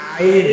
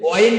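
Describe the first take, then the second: First: The word begins with a throat sound. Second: The word begins with a w glide. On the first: The speaker calls it right. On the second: The speaker calls it wrong.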